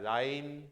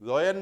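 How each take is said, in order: First: The first vowel sounds like 'eye'. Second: The first vowel sounds like 'oy'. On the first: The speaker calls it right. "आई का diphthong है" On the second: The speaker calls it wrong. "लॉयन नहीं है ये"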